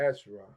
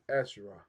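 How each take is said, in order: No difference in how they are said.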